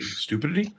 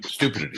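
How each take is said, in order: First: "Stupidity" lifted high and soft into a question; doubtful stress. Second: "stupidity" said low with a falling end; misplaced stress. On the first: Host checking his own syllables, doubtful rising stress. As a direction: test "Stupidity" with a rising, unsure end. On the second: Host stumbling over his own word, misplaced stress. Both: Real, not acted. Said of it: "can't emphasize my right syllables".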